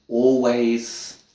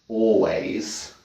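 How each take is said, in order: The two takes are said the same way.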